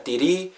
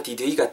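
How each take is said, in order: First: "Did he" run together as "diri"; linked sounds. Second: "Did he" in separate words; unlinked words. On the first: Teacher showing learners the link, "Did he" as "diri". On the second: Teacher giving the form before linking, "Did he" unlinked. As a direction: keep the h in "Did he". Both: Shown as a demonstration. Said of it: "요런 식으로 음이 연결됩니다".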